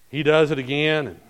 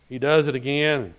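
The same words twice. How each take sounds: The two takes are said the same way.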